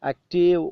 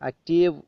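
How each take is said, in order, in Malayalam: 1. അവസാനത്തെ v ശബ്ദം ഒഴിവാക്കുന്നു അല്ലെങ്കിൽ ഏതാണ്ട് നിശ്ശബ്ദമാണ്. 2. അവസാനത്തെ v ശബ്ദം ഒഴിവാക്കുന്നു അല്ലെങ്കിൽ ഏതാണ്ട് നിശ്ശബ്ദമാണ്.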